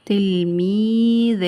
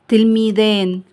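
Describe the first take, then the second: First: تلميذان stretched very slowly on level pitch; drawn-out repeat. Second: Said in the usual way. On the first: Shown as a demonstration. Teacher repeating a word for pupils, drawn out. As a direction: hold every long vowel in تلميذان.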